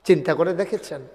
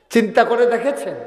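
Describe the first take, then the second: First: Said in the usual way. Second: "চিন্তা করে দেখেছেন" pitched high and pressed; emphatic repeated question. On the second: Real, not acted. Preacher pressing the crowd to think, "চিন্তা করে দেখেছেন" high and emphatic. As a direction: raise "চিন্তা করে দেখেছেন" into an insistent challenge.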